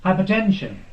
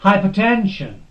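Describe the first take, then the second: First: The stress is on the syllable ten. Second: The same.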